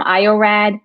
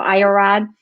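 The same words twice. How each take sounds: First: Iorad ending in "rad", A as in "cat"; iorad with short A. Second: Iorad ending in "rahd", A as in "father"; iorad with broad A. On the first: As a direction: say iorad as eye-oh-RAD, rhyming with "bad". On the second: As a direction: say iorad as eye-oh-RAHD, rhyming with "nod". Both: Shown as a demonstration. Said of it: "How do you say it?".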